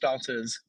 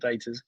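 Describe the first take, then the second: First: The first vowel sounds like 'ah' in father. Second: The first vowel sounds like 'ay' in day. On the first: This is the usual southern hemisphere pronunciation. "southern hemisphere seem to always go for the other route. They're always darters" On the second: This is the pronunciation used elsewhere. "not not daters"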